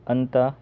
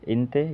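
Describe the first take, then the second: First: It starts with an a sound and ends in a. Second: It starts with an i sound and ends in e. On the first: "कोई अंता बोलता है" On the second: "कोई इंते बोलता है"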